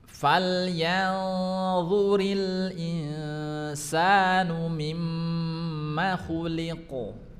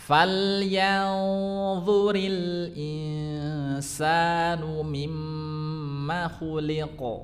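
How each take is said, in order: No difference in how they are said.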